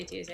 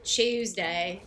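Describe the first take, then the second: First: Said in the usual way. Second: "Tuesday" said as "Chews-day", slow and louder; mock British pronunciation. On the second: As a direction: open "Tuesday" with a British ch sound. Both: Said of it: "that's how they say Tuesday".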